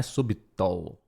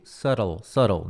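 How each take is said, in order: First: "subtle" as SU-bi-tol, B sounded; mispronounced subtle. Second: Low "subtle" as SUH-rol, repeated; silent B. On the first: Teacher showing what to avoid, "subtle" as SU-bi-tol. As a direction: wrongly voice the B in "subtle". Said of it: "não é subtle". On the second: Teacher reminding learners of the silent B, "subtle" as SUH-rol. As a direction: say "subtle" without any B. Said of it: "com B mudo no meio". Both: Shown as a demonstration.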